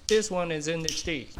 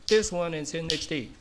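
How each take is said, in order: No difference in how they are said.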